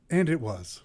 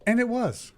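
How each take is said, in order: First: Said in the usual way. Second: Dramatic reveal. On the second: Shown as a demonstration.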